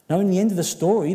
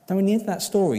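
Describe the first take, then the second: First: Loud emphatic opening. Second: Loud emphatic repeat. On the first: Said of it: "restarts line louder". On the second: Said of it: "repeats the opening". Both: Real, not acted.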